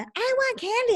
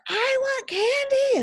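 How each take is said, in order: First: It is said without yelling. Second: It is yelled loudly.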